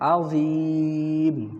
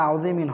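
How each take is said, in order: First: The long vowel is held, with no '-in'. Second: It ends with a short nasal '-in' syllable. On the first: "তিন আলিফ টান দেবো। তিন আলিফ টান দিলে তানবিন পড়া লাগবে না।" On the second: "আযীমিন হিসাবে আযীমিন হয়"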